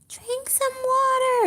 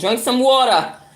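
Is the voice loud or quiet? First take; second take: quiet; loud. First: It is said small and quiet. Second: It is said loudly and clearly.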